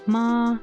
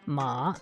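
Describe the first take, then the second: First: The pitch stays high and level. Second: The pitch dips low, then comes back up. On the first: "the first tone, which is uh like a flat, um a high tone" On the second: "a third tone, which is kind of like a dipping tone"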